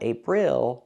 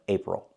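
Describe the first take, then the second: First: The last syllable has a clear 'ill' vowel. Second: The last syllable has a relaxed 'ol' vowel. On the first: The speaker calls it wrong. "we do not say ill" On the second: The speaker calls it right. "We say ol"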